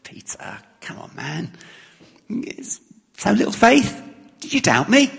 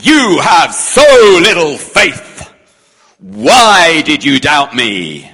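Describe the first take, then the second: First: Soft, light and higher, friendly nudge; a softer, higher, affectionate reading; gentle teasing. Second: Loud, slow stern telling-off; a louder, slower, stern reading of the line; harsh rebuke. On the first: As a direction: rib a mate kindly. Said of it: "Or do we read it as". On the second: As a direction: scold him as a disappointed master. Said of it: "Do we read it as". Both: Shown as a demonstration.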